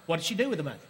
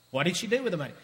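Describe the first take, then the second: No difference in how they are said.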